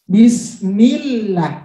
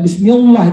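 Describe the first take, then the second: First: The L in 'llah' sounds light and thin. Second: The L in 'llah' sounds heavy and dark. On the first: The speaker calls it right. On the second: The speaker calls it wrong. "Tidak bismillah itu tebal"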